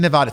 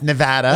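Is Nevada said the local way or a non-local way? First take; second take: non-local; local. First: Nevada is said with a non-local pronunciation. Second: Nevada is said with the local pronunciation. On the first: The speaker calls it wrong. "you don't say Nevada?" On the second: The speaker calls it right. "It's Nevada"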